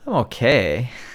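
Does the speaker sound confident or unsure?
unsure. It is said in a hesitant, unconfident tone. "doesn't sound too confident"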